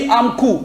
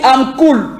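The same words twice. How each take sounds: First: "cool" said American-style, ending on the vowel "coo"; American swallowed L. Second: "cool" said British-style with a clearly sounded final L. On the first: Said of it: "Mais les Américains, ils vont dire". (« cool » à l'américaine, en avalant le L final) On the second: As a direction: hold on to the L ending "cool". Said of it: "Ils maintiennent le son de L". (« cool » à la britannique, en prononçant bien le L final) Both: Shown as a demonstration.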